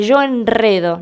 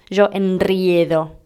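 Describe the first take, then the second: First: "enredo" with simple e, en-RE-do; correct plain vowel. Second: "enriedo" with ie, en-RRIE-do; slow, lower "enriedo", stretching the ie; mistaken diphthong. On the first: Teacher giving the correct form, "enredo" without diphthong. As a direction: stress a single e in "enredo". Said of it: "Se dice". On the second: Teacher rejecting the error, "enriedo" with slow ie. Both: Shown as a demonstration.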